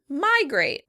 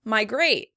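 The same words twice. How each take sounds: First: The stress is on the first syllable. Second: The stress is on the second syllable. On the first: "In American English, the word is stressed on the first syllable" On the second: "In British English, the word would be stressed on the second syllable"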